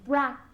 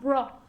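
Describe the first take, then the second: First: The vowel is an open 'ah' sound. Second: The vowel is a rounded 'oh' sound. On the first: The speaker calls it right. "It's pronounced as if it had an A" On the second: The speaker calls it wrong. "not bro"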